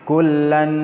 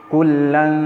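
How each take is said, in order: The two takes are said the same way.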